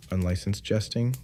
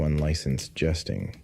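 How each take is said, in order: First: "Unlicensed jesting?" higher, rising at the end; incredulous question. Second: Said in the usual way. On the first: A narrator's reading. Narrator questioning an absurd old law, "Unlicensed jesting?" as incredulous rising question. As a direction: echo "Unlicensed jesting?" as a puzzled, high-pitched question. Narrator queries the term just read.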